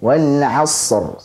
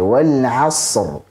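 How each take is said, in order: First: The s sound has a moderate length. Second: The s sound has a moderate length.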